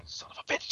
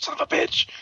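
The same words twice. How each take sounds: First: Very soft, voiceless swearing; hushed curse. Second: High-pitched, strained cursing; mock outburst. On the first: Retold or imitated. Ian caught out by his teammates, hushed cursing. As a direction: curse under your breath, mock-furious. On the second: Ian caught out by his teammates, squeaky cursing. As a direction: let the curse burst out high and strained. Same curse repeated, blown up.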